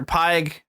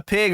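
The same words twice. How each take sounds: First: "Pyg" with a long i; long-i pronunciation. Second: "Pig" with a short i; short-i pronunciation. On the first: Offering another villain pronunciation, "Pyg" with long i. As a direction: say "Pyg" as "pyeg", rhyming with "Mike" but ending in g. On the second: Unsure of a villain's name, "Pig" with short i. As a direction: say "Pig" like the farm animal. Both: Shown as a demonstration. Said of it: "People have pronounced it differently".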